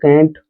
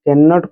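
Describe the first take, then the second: First: It is shortened to a single syllable. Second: It is said in full as two syllables.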